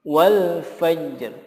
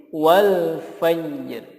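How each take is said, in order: No difference in how they are said.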